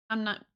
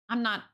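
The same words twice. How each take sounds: The two takes are said the same way.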